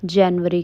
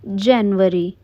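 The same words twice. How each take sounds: First: जनवरी said the English way, "January"; correct English pronunciation. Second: जनवरी said Indian-style as "jenvari"; the wrong Hindi way, जनवरी with a short flat e; wrong pronunciation. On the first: Teacher giving the right English जनवरी. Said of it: "English में हम उसे जनवरी कहते हैं". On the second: Teacher showing the common mistake, जनवरी said wrong. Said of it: "जनवरी नहीं". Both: Shown as a demonstration.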